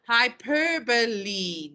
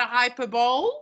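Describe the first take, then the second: First: Hyperbole said slowly as hy-PER-buh-lee; hyperbole in four syllables, ending in "lee"; correct pronunciation. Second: Hyperbole said as HY-per-bowl; hyperbole like "hyper" plus "bowl"; mistaken pronunciation. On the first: Teacher introducing the term, hyperbole slowly as hy-PER-buh-lee. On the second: Teacher showing the mistake, hyperbole as HY-per-bowl. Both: Shown as a demonstration. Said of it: "not a hyperbole".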